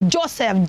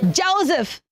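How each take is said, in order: First: Joseph as "JO-sef", hissed s; s and full "ef" in Joseph; wrong pronunciation. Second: Joseph as "JOE-zuf"; long o and buzzing z in Joseph; correct pronunciation. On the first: Teacher showing what not to say, mispronounced Joseph. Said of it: "so we don't say Joseph". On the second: Teacher modelling for children, careful Joseph. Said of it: "It is Joe". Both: Shown as a demonstration.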